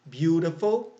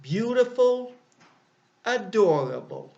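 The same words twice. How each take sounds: First: Said in the usual way. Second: Bright example word. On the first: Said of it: "three syllables". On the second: Shown as a demonstration. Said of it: "Here are two examples of long adjectives".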